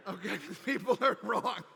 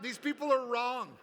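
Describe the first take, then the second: First: Laughing through the words. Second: Mock accusation. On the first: Pretend. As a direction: tease them while laughing. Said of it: "I'm just playing".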